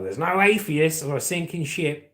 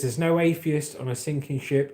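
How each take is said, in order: First: It is said in an Australian accent. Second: It is said in a plain, non-Australian accent.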